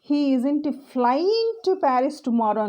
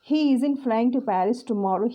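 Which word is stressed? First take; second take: flying; he. First: The stress falls on the word flying. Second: The stress falls on the word he. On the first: He is going there, but not by plane. "So he is going to Paris but not through a plane" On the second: Someone else is flying there. "His brother is"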